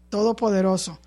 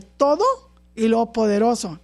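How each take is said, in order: First: TODOPODEROSO run together without a break; joined as one. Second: TODO rising, a pause, then PODEROSO; two separate words. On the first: Preacher showing the two words united, said as one. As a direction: say "todopoderoso" as one unbroken word. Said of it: "Entonces se unen y es". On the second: Preacher showing the congregation two words, said separately. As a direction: split "todo" from "poderoso" with a clear gap. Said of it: "separadas, fíjese". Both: Shown as a demonstration.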